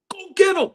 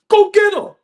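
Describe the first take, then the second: First: Said in the usual way. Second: High, loud call to go get him; shouted demand. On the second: Real, not acted. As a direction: yell it like a fed-up fan. Fan demanding the trade.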